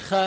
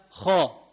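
First: خ as a thin, fronted "kha"; wrong thin خ. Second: خا as a thick, backed "kho"; heavy خ. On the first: Teacher showing the rejected sound, thin "kha" خ. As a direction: keep خ light and flat, "kha". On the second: Teacher giving the corrected sound, heavy "kho" خا. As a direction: round out خا heavily. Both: Shown as a demonstration. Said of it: "مش خ".

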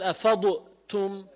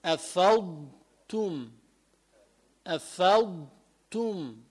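First: أفضتم with an echoing bounce on the ض, heard as أفضُتم; wrong, dad bounced. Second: أفضتم slowly, with a still ض and no bounce; correct, slow. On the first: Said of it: "ما تعمل قلقلة على الضاد". (قلقلة خاطئة على ضاد أفضتم) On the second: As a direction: keep the ض of أفضتم smooth. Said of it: "لا،". (نطق صحيح بلا قلقلة لأفضتم) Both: Shown as a demonstration.

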